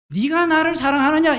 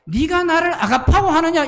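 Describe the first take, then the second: First: Said in the usual way. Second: 아가파오하느냐 said higher and louder than the word 사랑하느냐; stress on 아가파오하느냐. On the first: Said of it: "이 말은". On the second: Shown as a demonstration. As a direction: lean on 아가파오하느냐 as the Greek word. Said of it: "이 말이거든요". (아가파오하느냐를 힘주어 높게)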